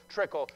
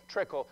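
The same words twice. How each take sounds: The two takes are said the same way.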